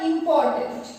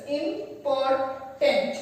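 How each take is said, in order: First: Said in the usual way. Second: Important said slowly, syllable by syllable; Important, each syllable spelled out slowly; broken into syllables. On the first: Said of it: "We can break the word into syllables". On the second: Shown as a demonstration. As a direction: stretch Important out as im-por-tant. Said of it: "break the word into syllables".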